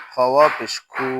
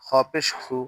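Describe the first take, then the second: First: খু with a long u; খু held long; stretched vowel. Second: খু with a short u; no stretch. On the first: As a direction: draw out the vowel of খু. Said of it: "ওয়াও থাকলে টান দিব". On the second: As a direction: cut the vowel of খু short. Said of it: "আমরা টান দিব না". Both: Shown as a demonstration.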